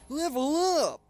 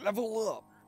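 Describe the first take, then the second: First: It is said in an exaggerated, annoying voice. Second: It is said in a fairly plain voice. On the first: The speaker calls it right. "Just saying it in the most annoying" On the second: The speaker calls it wrong. "that didn't say it right"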